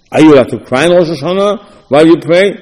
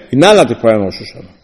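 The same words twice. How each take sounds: First: "Are you allowed to cry" asked openly, rising at the end; questioning. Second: "You're not allowed to cry" low and fast, falling at the end; quick ruling. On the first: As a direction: lift "while you pray" into a debating question. Asks the debated question. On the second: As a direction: answer with "not allowed" at speed, pitch dropped. Answers the debated question. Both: Acted.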